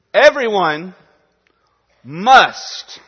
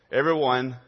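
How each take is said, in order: First: Everyone must, with must hit hard and loud; preacher punching the word must at the congregation; stress on must. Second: Said in the usual way. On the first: Shown as a demonstration. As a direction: lean into the word must, louder and higher. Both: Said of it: "Put the emphasis where it is".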